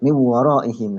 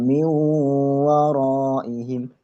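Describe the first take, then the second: First: It is read straight through without a nasal hum. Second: It is read with a held nasal hum. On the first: The speaker calls it wrong. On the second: The speaker calls it right.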